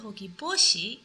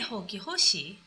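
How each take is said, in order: First: The second word begins with a b sound. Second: The second word begins with an h sound. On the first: The speaker calls it right. "We say Hoki Boshi" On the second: The speaker calls it wrong. "we don't say Hoki Hoshi"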